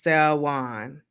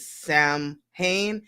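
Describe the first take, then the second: First: The word is pronounced like 'Sawan'. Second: The word is pronounced letter by letter. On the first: The speaker calls it right. "You pronounce it like Sawan" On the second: The speaker calls it wrong. "you don't pronounce it Samhain"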